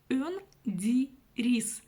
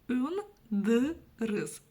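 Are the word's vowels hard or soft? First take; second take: soft; hard. First: The word is read with soft front vowels. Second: The word is read with hard back vowels. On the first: The speaker calls it right. "Если мы прочитаем через букву «и»... мягко вроде" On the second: The speaker calls it wrong. "Если мы прочитаем через «ы», будет следующее"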